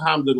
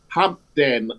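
First: The name is said in a relaxed, everyday way. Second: The name is said with careful, exaggerated enunciation. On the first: This is the speaker's own normal way of saying it. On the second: This is how television announcers say it.

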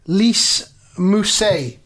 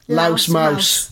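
First: The name sounds like 'Lise Mousse'. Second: The name sounds like 'Louse Mouse'. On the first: The speaker calls it right. "Let me have a look around here at your screen" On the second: The speaker calls it wrong. "this is something I mispronounced during the first episode"

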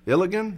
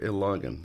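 First: The middle syllable sounds like 'lig'. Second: The middle syllable sounds like 'log'. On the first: The speaker calls it wrong. "Is that how we say it?" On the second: The speaker calls it right. "We're logging into a computer"

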